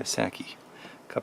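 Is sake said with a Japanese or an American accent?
American. Sake is said with an American pronunciation.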